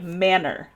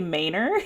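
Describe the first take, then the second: First: It has a standard, non-country pronunciation. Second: It has a country Texas pronunciation. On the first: The speaker calls it right. "I'm gonna try and say it right" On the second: The speaker calls it wrong. "I usually say Manor ... it's very country of me"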